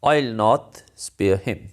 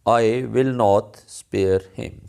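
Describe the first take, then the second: First: I and will are merged into one syllable. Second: I and will are said as separate words.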